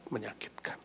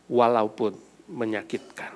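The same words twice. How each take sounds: First: Breathy whisper of Menyakitkan. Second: Said in the usual way. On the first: Acted. Pastor echoing the hurt to the congregation, whispered. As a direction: let Menyakitkan fall to a whisper.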